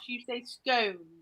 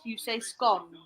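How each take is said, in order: First: It is said the posh way. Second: It is said the common way.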